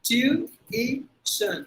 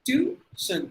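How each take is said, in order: First: The word is said with three syllables. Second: The word is said with two syllables. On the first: The speaker calls it right. "it's actually three syllables" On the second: The speaker calls it wrong. "ரெண்டு syllable முடிச்சிரும்"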